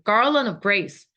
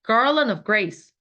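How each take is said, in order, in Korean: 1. 빠르게 말하며 'of'를 끼워 넣듯 발음합니다. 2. 빠르게 말하며 'of'를 끼워 넣듯 발음합니다.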